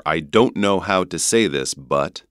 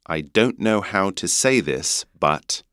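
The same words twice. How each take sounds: First: North American "know" and "but"; North American accent. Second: British vowel in "but"; British accent. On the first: Teacher offering the other version, North American accent. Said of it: "That would be North American accent". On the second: Teacher repeating the sentence for learners in a British accent. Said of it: "刚刚英国腔会变成but". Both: Shown as a demonstration.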